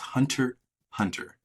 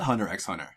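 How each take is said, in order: First: The middle X is left silent. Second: The middle X is spoken aloud. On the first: The speaker calls it right. "the X is there, but it is" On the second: The speaker calls it wrong. "it is not"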